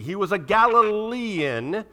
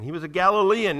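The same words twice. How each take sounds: First: "Galilean" drawn out slowly on its IAN ending, higher; slow, raised "Galilean" with a lingering -ian; stretched ending. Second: Said in the usual way. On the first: Shown as a demonstration. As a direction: lean long on the -ian at the end of "Galilean". Stresses the I-A-N ending.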